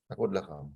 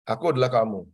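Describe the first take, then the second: First: The motto again, much softer and lower; soft echo of the motto; quiet repeat. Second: Said in the usual way. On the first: Shown as a demonstration. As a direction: let the repeat of Aku adalah kamu sink, hushed and low. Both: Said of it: "repeated motto".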